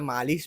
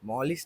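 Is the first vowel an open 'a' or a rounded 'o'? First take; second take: open 'a'; rounded 'o'. First: A plain Marathi accent gives the first vowel an open 'a'. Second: An English-style accent gives the first vowel a rounded 'o'. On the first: The speaker calls it right. "आणि त्याला मालिश बोलतात" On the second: The speaker calls it wrong. "English accent लावून त्याला मॉलिश नाही करायचं"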